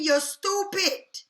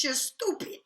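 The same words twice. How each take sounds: First: STUPID drawn out slowly and higher; slow, scolding weight on STUPID; emphatic repeat. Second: Said in the usual way. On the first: Real, not acted. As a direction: hammer home "stupid", stretching it right out. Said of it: "I'ma say it again". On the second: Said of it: "I'ma say it like this".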